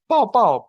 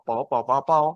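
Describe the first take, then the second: First: Pao, pao high and loud, then falling; Pao, pao as a tone sequence, up high then down; tone drill pao. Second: Pao, pao, pao said lower, each with its own tone; tone drill pao. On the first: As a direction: call out Pao, pao with sharp tones. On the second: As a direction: run through pao, pao, pao in order of the tones. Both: Shown as a demonstration. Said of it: "Jadi kalau digabung".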